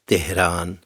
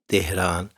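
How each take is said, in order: Both takes have the same delivery.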